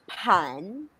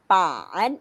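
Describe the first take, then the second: First: The first consonant has a puff of air. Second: The first consonant has no puff of air. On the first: The speaker calls it wrong. "it's not pan" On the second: The speaker calls it right. "Since it's letter B, walang hangin"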